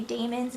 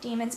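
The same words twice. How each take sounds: First: "daemons" opening like the word day; DAY-mons pronunciation. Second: "demons" opening with an EE sound; DEE-mons pronunciation. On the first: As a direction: pronounce "daemons" as DAY-munz. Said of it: "whenever it's spelled D A E". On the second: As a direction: pronounce "demons" as DEE-munz. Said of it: "instead of demons". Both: Shown as a demonstration.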